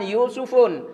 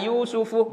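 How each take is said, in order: First: The name ends with an added n sound. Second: The name ends in a vowel without n. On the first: The speaker calls it wrong. "bukan Yusufun" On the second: The speaker calls it right. "tidak boleh ditanwin"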